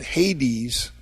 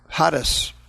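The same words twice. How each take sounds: First: The word is pronounced the English way. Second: The word is pronounced the Greek way. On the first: "or in English they pronounce it" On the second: "That's the Greek word"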